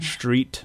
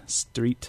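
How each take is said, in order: First: The word begins with an sh sound. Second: The word begins with a plain s sound. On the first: "an S before a T-R becomes sh, so we say street" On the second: "instead of street"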